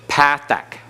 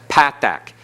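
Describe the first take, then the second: Both takes have the same delivery.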